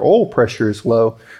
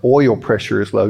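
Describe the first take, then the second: First: The word oil is said with a Southern accent. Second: The word oil is said with a standard accent. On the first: "that was a really Southern way of saying it" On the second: "I'm sorry"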